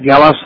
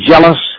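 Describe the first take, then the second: First: The name begins with a hard G sound. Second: The name begins with a soft G sound. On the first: The speaker calls it right. "Hard G" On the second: The speaker calls it wrong. "Is it pronounced Jealous?"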